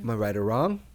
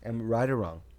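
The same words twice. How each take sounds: First: It is said with a questioning tune. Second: It is said flatly, like a statement.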